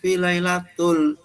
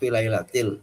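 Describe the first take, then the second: First: The last word ends with a u vowel. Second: The last word ends with an i vowel. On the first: The speaker calls it wrong. "ini bacanya fi lailatul. Nah, salah ya" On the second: The speaker calls it right. "harusnya kan fi lailatil"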